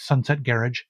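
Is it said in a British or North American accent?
British. It is said with a British pronunciation.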